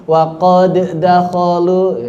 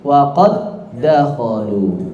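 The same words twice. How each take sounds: First: Wa qad dakholu with the d of qad and dakholu kept apart, slow; wrong unmerged reading. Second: Wa qad dakholu with the two d sounds fused into one held d; merged idgham reading. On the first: Teacher showing students the wrong unmerged reading, slow and deliberate. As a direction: separate the two d sounds in wa qad dakholu, no merging. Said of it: "Jadi nggak dibaca begini". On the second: Teacher showing students the better merged reading, slow. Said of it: "Lebih baik". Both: Shown as a demonstration.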